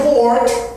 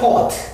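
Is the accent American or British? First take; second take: American; British. First: It is said with an American accent, with r. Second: It is said with a British accent, no r. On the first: "미국에서는" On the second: "영국에서는 port. R 발음이 없습니다"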